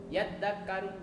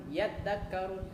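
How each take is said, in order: Both takes have the same delivery.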